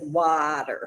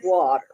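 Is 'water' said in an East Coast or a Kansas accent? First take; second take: Kansas; East Coast. First: It is said with a Kansas accent. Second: It is said with an East Coast accent. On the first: "In Kansas, they said water" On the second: "on the East Coast where I grew up, ... we said water"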